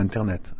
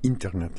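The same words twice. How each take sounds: First: It is said with a French pronunciation. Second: It is said with an English pronunciation. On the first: The speaker calls it wrong. "en anglais, c'est pas Internet" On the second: The speaker calls it right. "c'est Internet"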